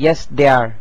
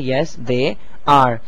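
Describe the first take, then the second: First: They are is contracted to they're. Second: They are is said as two full words. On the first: The speaker calls it wrong. "ये ये बिल्कुल गलत है" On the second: The speaker calls it right. "आपको पूरा जुमला कहना पड़ेगा"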